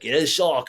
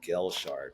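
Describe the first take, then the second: First: The name is said with flair and energy. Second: The name is said plainly, without flair. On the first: The speaker calls it right. "gotta say it with some style" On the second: The speaker calls it wrong. "you're saying Gill Shark"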